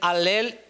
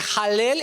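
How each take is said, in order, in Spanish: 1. La palabra empieza directamente con un sonido vocálico. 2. La palabra empieza con un sonido H audible. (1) "Si usted es latinoamericano, la H es muda" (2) "si usted es norteamericano, la H se pronuncia"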